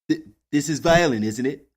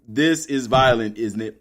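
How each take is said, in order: First: It is said in a put-on imitation voice. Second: It is read in the speaker's own normal voice.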